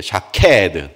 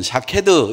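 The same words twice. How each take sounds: First: 샤케드 with a punched, drawn-out 케; Hebrew-style stress. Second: Said in the usual way. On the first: Shown as a demonstration. Preacher teaching the congregation to read Hebrew, stressed middle syllable in 샤케드. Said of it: "히브리식으로 읽어야 돼요". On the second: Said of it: "이렇게 읽지 마시고".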